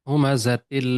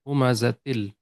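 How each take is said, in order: The two takes are said the same way.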